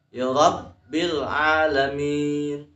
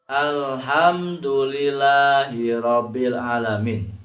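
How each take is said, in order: First: Slow ya Rabbil Alamin, b held; Rabbil with tasdid held. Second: Alhamdulillahi Rabbil Alamin with doublings dropped; Rabbil read without tasdid. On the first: Teacher showing correct tasdid, Rabbil chanted with held b. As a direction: press the doubled b in Rabbil. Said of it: "di sana tasdid". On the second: Teacher showing the common mistake, Rabbil with no held b. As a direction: glide through Rabbil without holding the b. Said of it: "Jangan dibaca". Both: Shown as a demonstration.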